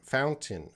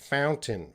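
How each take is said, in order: The two takes are said the same way.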